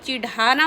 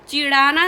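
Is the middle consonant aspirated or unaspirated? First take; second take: aspirated; unaspirated. First: The middle consonant is aspirated. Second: The middle consonant is unaspirated. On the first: The speaker calls it right. "चिढ़ाना होता है" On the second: The speaker calls it wrong. "चिढ़ाना नहीं"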